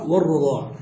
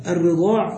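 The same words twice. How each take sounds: First: والرضاع said war-radaa', a after the r; fatha on the ra. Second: الرضاع said ar-ridaa', i after the r; kasra on the ra. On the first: Teacher shows both vowellings of the word, ر with fatha in والرضاع. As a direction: say والرضاع with a short a on the ر. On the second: Teacher shows both vowellings of the word, ر with kasra in الرضاع. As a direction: say الرضاع with a short i on the ر. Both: Shown as a demonstration. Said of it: "الرضاع بكسر الراء وفتحها".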